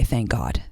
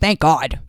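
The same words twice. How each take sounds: First: It is said in her normal voice. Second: It is said imitating Ramona's voice.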